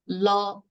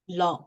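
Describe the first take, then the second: First: The pitch stays level and mid. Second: The pitch falls. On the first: "the even tone is la" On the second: "The third"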